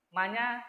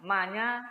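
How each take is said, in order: Both takes have the same delivery.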